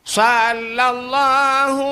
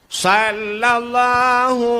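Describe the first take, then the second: The two takes are said the same way.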